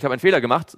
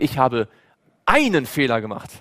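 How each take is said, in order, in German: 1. Die Betonung liegt auf dem Wort Fehler. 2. Die Betonung liegt auf dem Wort einen. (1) "will ich damit auszubringen, ich habe einen Fehler gemacht" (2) "dann sage ich, ansonsten war ich perfekt"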